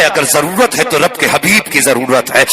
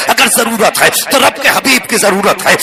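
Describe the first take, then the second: First: Said in the usual way. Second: "تو" lifted higher on the repeat, whole line pitched up; raised repetition. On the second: Shown as a demonstration. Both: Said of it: "repeated line, second take raised".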